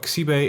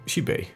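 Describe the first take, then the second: First: The word begins with a non-sh sound. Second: The word begins with an sh sound. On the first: The speaker calls it wrong. "this is not Xibe" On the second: The speaker calls it right. "the X Y is pronounced as sh"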